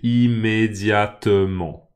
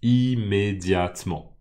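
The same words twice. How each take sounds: First: The word is said with five syllables. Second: The word is said with four syllables. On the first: This is the theoretical pronunciation. "théoriquement, ce mot a cinq syllabes" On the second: This is how people actually say it. "les gens disent immédiatement. Immédiatement. En quatre syllabes"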